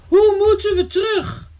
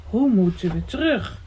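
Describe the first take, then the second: First: High-pitched wail of alarm; frightened cry. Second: Unworried echo. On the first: Elsje asks the boy how to get back, frightened cry. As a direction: call out, scared of being stranded. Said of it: "riep Elsje verschrikt". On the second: The boy ponders Elsje's question on the stone, unworried musing. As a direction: echo the question without any alarm. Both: A narrator's reading.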